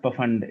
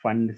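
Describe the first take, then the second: First: The word begins with an audible P sound. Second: The word begins with an F sound, no P. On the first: The speaker calls it wrong. "It is not पफंड" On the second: The speaker calls it right. "It is पी silent"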